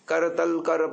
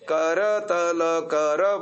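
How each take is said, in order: First: The final short vowels of the words are dropped. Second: Every short vowel is fully pronounced. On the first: The speaker calls it wrong. "कितना गलत उच्चारण करते रहे हैं। करतल कर पृष्ठे कर देते हैं" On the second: The speaker calls it right. "प्रत्येक स्वर का उसका पूरा सम्मान देना है।"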